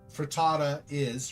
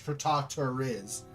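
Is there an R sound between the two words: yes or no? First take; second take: no; yes. First: The two vowels join with no R sound. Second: An R sound links the two vowels.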